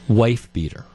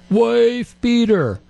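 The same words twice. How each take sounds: First: It is said at a normal volume. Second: It is yelled loudly.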